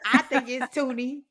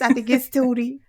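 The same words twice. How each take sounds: First: It is said tentatively, without conviction. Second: It is said boldly, with full conviction. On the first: The speaker is unsure of the name. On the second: The speaker commits firmly to the name.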